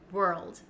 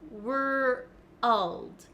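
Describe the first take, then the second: First: The word is said smoothly as one syllable. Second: The word is split with an added uh sound. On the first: The speaker calls it right. "When I say world as a native speaker, um, I don't think about it and it just comes naturally" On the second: The speaker calls it wrong. "break down the word and say were first, and then to get the L sound"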